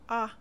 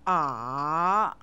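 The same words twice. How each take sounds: First: It is short and light, without emphasis. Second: The pitch dips down, then rises. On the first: "spoken briefly without any special emphasis" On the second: "The third tone dips down, then rises"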